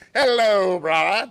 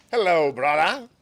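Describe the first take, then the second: First: Much louder, higher, drawn-out hello; big booming greeting. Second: Louder, hearty monk's hello; hearty greeting. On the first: Tanzan calling out to his visitor Unsho, booming welcome. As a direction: boom it out to welcome him. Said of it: "Tanzan greeted him". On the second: Tanzan greeting the visiting Unsho, hearty and loud. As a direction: greet him like an old friend. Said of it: "That's how he talked". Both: Acted.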